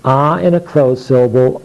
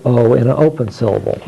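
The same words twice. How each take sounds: First: O said "ah", as in octopus; short O sound. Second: O said as its letter name, "oh"; long O sound. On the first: Teacher showing what the student would say, short "ah". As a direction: open "ah" for short O. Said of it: "the student would say ah". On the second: Teacher showing what the student would say, long "oh". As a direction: round long "oh" on O. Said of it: "this also stands for the sound O". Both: Shown as a demonstration.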